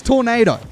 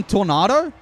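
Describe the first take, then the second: First: "Tornado" as tor-NAY-doh, like the storm; tor-NAY-doh pronunciation. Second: "Tornado" as tor-NAH-doh, rhyming with bravado; tor-NAH-doh pronunciation. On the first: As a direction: say "Tornado" with a long AY. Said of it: "does that mean people call him Tornado". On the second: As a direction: say "Tornado" with an open AH. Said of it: "does that mean people call him". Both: Shown as a demonstration.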